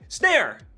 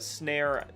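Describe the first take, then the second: First: The word is said excitedly, like an exclamation. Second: The word is said flatly, without excitement. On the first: The speaker calls it right. "how you pronounce that with the exclamation point" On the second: The speaker calls it wrong. "I have not been pronouncing"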